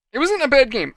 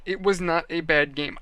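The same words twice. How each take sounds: First: Wasn't punched high and loud; emphatic. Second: Said in the usual way. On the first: Real, not acted. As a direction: hit "wasn't" hard with a falling tune. Defending the game emphatically.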